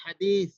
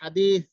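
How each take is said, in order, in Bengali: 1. মাঝের ব্যঞ্জনবর্ণটি একটি নরম th উচ্চারণ। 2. মাঝের ব্যঞ্জনবর্ণটি একটি নরম th উচ্চারণ।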